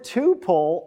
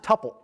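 First: The first vowel is long, as in super. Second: The first vowel is short, as in supper. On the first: The speaker calls it right. "You pronounce it tuple" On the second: The speaker calls it wrong. "not tuple"

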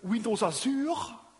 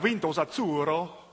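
First: It is said with a French accent. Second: It is said with an Italian accent. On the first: "with a French accent" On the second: "if I talk to my friend Vittorio"

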